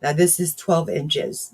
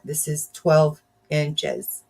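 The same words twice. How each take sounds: First: Said in the usual way. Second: Twelve stretched slowly and stressed; slow emphasis on twelve. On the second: Real, not acted. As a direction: lean into twelve, slow and firm. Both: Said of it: "Believe it or not".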